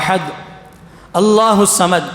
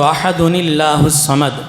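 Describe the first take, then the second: First: The words are separated with no linking sound. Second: The words are joined by a linking 'n' sound.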